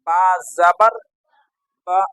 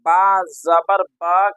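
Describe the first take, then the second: First: The final vowel is kept short. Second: The final vowel is drawn out long. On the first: The speaker calls it right. "बल्कि क्या बोलना है?" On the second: The speaker calls it wrong. "गलत हो जाएगा, तो ये अलिफ मद्दा बन जाएगा"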